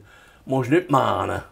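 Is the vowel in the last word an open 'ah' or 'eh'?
ah. The last word has an open 'ah' vowel. This is the local valley dialect. "Wir sagen zum Beispiel"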